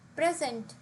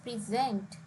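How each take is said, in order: First: The stress is on the first syllable. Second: The stress is on the second syllable. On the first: It is a noun. "When used as a noun, the stress is on the first syllable" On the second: It is a verb meaning to offer. "if we use this word as a verb, which means to offer, the stress is on the second syllable"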